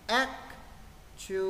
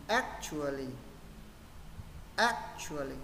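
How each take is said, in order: First: Actually broken into ac, tu, a, lly with pauses; actually drawn out, stress on the first syllable; slow, syllable by syllable. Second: Brisk whole-word actually, stressed on ac; quick, joined up. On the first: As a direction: sound out each part of actually slowly. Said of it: "Với trọng âm rơi vào âm X". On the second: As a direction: actually run together as one word, stress first. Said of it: "và sẽ đọc nhanh". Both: Shown as a demonstration.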